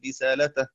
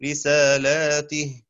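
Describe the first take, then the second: First: رسالتَه with no alif and the ta with fatha; رسالتَه said short, ta open; singular reading. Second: رسالاتِه said slowly, long alif after the lam and the ta with kasra; رسالاتِه drawn out with the alif; plural reading. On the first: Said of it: "بفتحها دون ألف". (رسالتَه بالإفراد وفتح التاء) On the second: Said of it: "بكسر التاء وألف قبلها". (رسالاتِه بالجمع وكسر التاء) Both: Shown as a demonstration.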